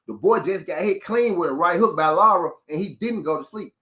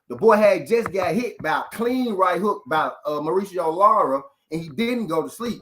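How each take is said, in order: First: It is said at a normal pace. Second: It is said slowly and deliberately.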